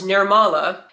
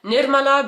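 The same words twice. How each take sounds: First: The name is said with an American pronunciation. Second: The name is said with an Indian pronunciation. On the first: The name made easier for others to say. The speaker calls it wrong. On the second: The name as the parents intended. The speaker calls it right.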